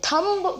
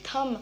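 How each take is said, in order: First: "thumb" with the b pronounced, THUM-b; sounded b. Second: "thumb" ending on m, THUM; silent b. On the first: Teacher showing the mistake, thumb said with a sounded b. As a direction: say "thumb" wrongly, releasing a final b. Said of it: "बी pronounce करते हैं". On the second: Teacher correcting the word, thumb said with silent b. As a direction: say "thumb" with no final b. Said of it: "बी हमारा silent होता है". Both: Shown as a demonstration.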